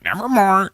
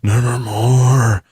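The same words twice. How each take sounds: First: It is said in a squawky, parrot-like voice. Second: It is said in a deep, breathy, ghostly voice.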